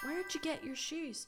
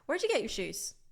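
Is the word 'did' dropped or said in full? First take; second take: full; dropped. First: Every word is said fully, including 'did'. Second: Spoken fast, with 'did' reduced to a 'd'.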